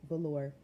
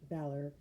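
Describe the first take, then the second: First: The word is pronounced like velour. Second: The word is pronounced like valor. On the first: The speaker calls it right. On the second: The speaker calls it wrong.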